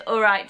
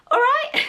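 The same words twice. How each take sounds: First: Said in the usual way. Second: "All right." sung out high with a rising tune; cheery "All right." swooping up as a hello; "All right." tossed off as a bright English greeting; British greeting all right. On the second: Shown as a demonstration. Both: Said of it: "if someone says".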